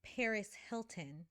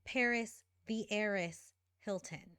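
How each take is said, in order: First: Said in the usual way. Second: Heiress leaned on with mock weight; sarcastic stress on heiress. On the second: Shown as a demonstration. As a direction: slip heiress in with a knowing punch. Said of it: "But I repeat, she is an heiress".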